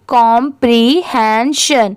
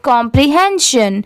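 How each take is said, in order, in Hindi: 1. यह शब्द धीरे-धीरे, एक-एक अक्षर करके बोला गया है। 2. यह शब्द जल्दी, सामान्य गति से बोला गया है। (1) "अब इन चारों को साथ में मिलाएंगे" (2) "अब इसे स्पीड में पढ़ेंगे"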